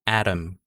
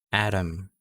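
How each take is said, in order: The two takes are said the same way.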